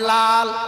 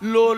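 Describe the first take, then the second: First: The syllable is said with an open a vowel. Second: The syllable is said with an o vowel. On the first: The speaker calls it right. "তারপরে লাল" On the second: The speaker calls it wrong. "লোল না"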